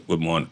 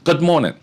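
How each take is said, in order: First: It is mumbled quietly, under the breath. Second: It is said loudly, to the whole room.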